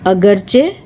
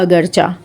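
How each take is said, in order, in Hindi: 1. यह शब्द 'ay' स्वर से खत्म होता है। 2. यह शब्द 'ah' स्वर से खत्म होता है। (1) "सही जो इनका तलफ़ुज़ है" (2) "हम बोलते हैं चुनाचा या अगरचा"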